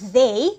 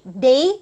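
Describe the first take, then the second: First: The word starts with a soft 'th' sound. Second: The word starts with a hard 'd' sound. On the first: The speaker calls it right. "instead of saying they" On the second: The speaker calls it wrong. "you say they play loud music. So it's not proper pronunciation anymore"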